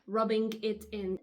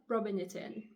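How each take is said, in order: First: The final g of rubbing is clearly pronounced. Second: The final g of rubbing is dropped. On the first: The speaker calls it wrong. "don't say rubbing it in" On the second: The speaker calls it right. "the G is technically silent"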